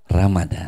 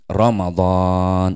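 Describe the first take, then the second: First: It is said with plain Indonesian sounds. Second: It is said with Arabic sounds. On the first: "Masuk Indonesia jadi Ramadan" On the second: "Harusnya begitu"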